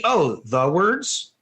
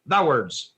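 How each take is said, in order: First: "the words" drawn out slowly with a rising end; non-Texan wrong take. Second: "the words" in low Texan, falling; Texan accent. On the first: Teacher showing what won't convey the meaning, slow non-Texan "the words". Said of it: "you won't convey the meaning". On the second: Teacher showing the only way to say it, Texan "the words". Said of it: "impossible not to be Texan". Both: Shown as a demonstration.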